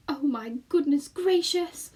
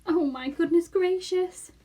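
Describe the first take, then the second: First: Slow, higher, louder lament; moaning. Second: Slow, higher, louder lament; moaning again. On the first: Homily despairing at leaving home, moaning. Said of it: "moaned Homily". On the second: Homily despairing again, moaning. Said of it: "moaned Homily again". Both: Acted. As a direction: wail it in dismay.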